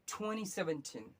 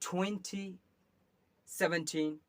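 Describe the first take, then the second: First: It is said in an American accent. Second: It is said in a British accent. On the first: "American में अगर बोलिएगा" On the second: "British में आपको बोला जाएगा"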